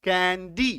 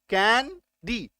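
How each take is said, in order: First: Said in the usual way. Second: "candy" very slow, कैं... डी; stretched, divided "candy" for counting syllables. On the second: Shown as a demonstration. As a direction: break "candy" into two separate beats. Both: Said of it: "दो syllable आ गया".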